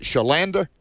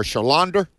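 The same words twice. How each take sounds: First: "Shalanda" with a flat A as in "land"; name variant with short A. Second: "Shalander" with an open AH, like "lawn-der"; name variant with open AH. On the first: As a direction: say "Shalanda" with the middle vowel of "cat". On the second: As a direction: say "Shalander" as sha-LAHN-der. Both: Shown as a demonstration. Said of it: "Is it Shalanda or Shalander?".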